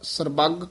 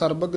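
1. ਵਿਚਕਾਰਲਾ ਵਿਅੰਜਨ ਦਬਾ ਕੇ ਦੁੱਗਣਾ ਬੋਲਿਆ ਜਾਂਦਾ ਹੈ। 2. ਵਿਚਕਾਰਲਾ ਵਿਅੰਜਨ ਹਲਕਾ ਅਤੇ ਇਕਹਿਰਾ ਹੈ। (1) "ਕਸ ਕੇ ਬੋਲਣਾ" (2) "ਨਹੀਂ ਕਹਿਣਾ ਹੈ"

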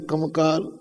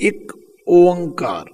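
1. ਇਹ ਇੱਕੋ ਸ਼ਬਦ ਵਾਂਗ ਜੋੜ ਕੇ ਬੋਲਿਆ ਜਾਂਦਾ ਹੈ। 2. ਇਹ ਦੋ ਵੱਖਰੇ ਸ਼ਬਦਾਂ ਵਾਂਗ ਬੋਲਿਆ ਜਾਂਦਾ ਹੈ। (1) "ਇਹਦਾ ਉਚਾਰਨ ਵੀ ਆਮ ਲੋਕ ਗਲਤ ਕਰਦੇ" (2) "ਇੱਕ ਵੱਖਰਾ ਕਹਿਣਾ, ਓੰਕਾਰ ਵੱਖਰਾ ਕਹਿਣਾ"

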